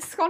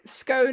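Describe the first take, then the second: First: The vowel is short, rhyming with gone. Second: The vowel is long, rhyming with cone. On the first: "scone as in gone" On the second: "scone as in cone"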